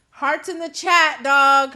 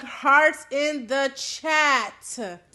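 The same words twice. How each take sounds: First: Loud call-out. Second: Hearts in the chat stretched very slowly; long drawn-out begging Hearts in the chat; slow drawn-out plea. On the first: Asks viewers for hearts. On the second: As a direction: drag out each word of Hearts in the chat. Repeats request to chat. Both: Real, not acted.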